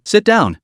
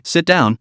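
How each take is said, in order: First: Sit down pitched higher and eager; eager repeat. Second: A gentle, welcoming sit down; warm invitation. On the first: Roommate pressing her friend to sit, higher and eager. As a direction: urge her again, higher and keener. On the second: Roommate welcoming her late friend, warmly. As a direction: ease her into the seat, kindly. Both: A narrator's reading. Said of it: "said warmly".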